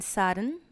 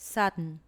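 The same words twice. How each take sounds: First: Sudden with the d and vowel both said; full form. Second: Sudden with the vowel dropped, suddn; elided form. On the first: Teacher shows the full word sudden, clear and unreduced. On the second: Teacher shows elision, sudden said as suddn. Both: Shown as a demonstration. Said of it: "for elision".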